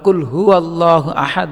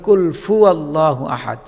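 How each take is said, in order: First: The second word starts with an h sound. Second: The second word starts with an f sound. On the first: The speaker calls it right. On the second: The speaker calls it wrong.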